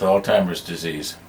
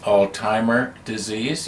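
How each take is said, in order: First: An S sound ends the first word. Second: No S sound ends the first word. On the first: The speaker calls it wrong. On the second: The speaker calls it right.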